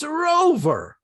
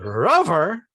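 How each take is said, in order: First: Said in the usual way. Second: "rover" rhymed with lover, short uh; mispronounced to rhyme. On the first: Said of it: "It's rover". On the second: Shown as a demonstration. Comic speech on English spelling, "rover" wrongly rhymed with lover. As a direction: say "rover" as if it were "ruvver". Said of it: "Lover and hover is okay".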